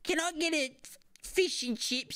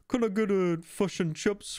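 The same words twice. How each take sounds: First: It is spoken in an Australian accent. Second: It is spoken in a New Zealand accent. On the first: "So an Australian would go" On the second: "And then the New Zealander would go"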